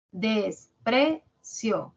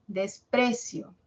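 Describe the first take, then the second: First: "Desprecio" very slowly split as des-pre-cio; syllable by syllable. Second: Said in the usual way. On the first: Shown as a demonstration. Teacher hunting the stressed syllable for students, "Desprecio" syllable by syllable. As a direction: pause between each syllable of "Desprecio". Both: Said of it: "¿Cuál es la tónica?".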